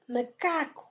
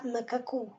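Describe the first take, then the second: First: Macaco with the middle CA stressed, last vowel weak. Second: Macaco with a full, stressed final CO; wrong final stress. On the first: Teacher shows correct macaco, stress on middle CA. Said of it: "On donne l'accent sur C A". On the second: Teacher shows the wrong macaco, stressing the last syllable. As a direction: say macaco as maca-CO. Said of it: "et pas macaco". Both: Shown as a demonstration.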